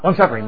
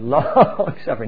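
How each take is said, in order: First: Both words are said quickly without stretching. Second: Both words are stretched out slowly. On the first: The speaker calls it wrong. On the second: The speaker calls it right. "You stretch the long out, and the suffer stretch the suffer out"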